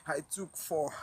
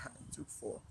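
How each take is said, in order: First: Said in the usual way. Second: Whispered to herself, almost to nothing. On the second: Real, not acted. Remembering the four hot drips, whispered in disbelief. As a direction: breathe the words out with no voice. Repeats the line, then whispers it.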